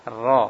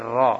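The two takes are said the same way.

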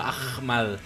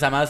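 First: The name is said with an h sound. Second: The name is said without an h sound. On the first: The speaker calls it right. "sino Ahmad" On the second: The speaker calls it wrong. "el apellido no es Ahmad"

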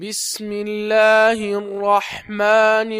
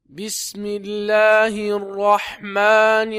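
Both takes have the same delivery.

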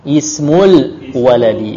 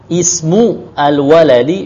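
First: The two words run together as one unit. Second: The two words are said as separate words. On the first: The speaker calls it right. "Biasanya langsung digabung" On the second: The speaker calls it wrong. "Kalau mau dipisah, ismu al-waladi bisa saja"

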